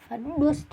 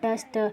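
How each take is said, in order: First: The vowel sounds like 'oo'. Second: The vowel sounds like 'uh'. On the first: The speaker calls it wrong. "डस्ट नहीं पढ़ेंगे" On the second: The speaker calls it right. "हम इसको क्या पढ़ेंगे डस्ट"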